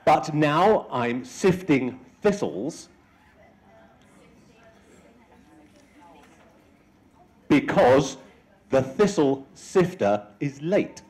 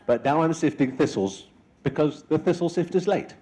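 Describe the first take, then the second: First: The sentence is spoken slowly. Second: The sentence is spoken faster.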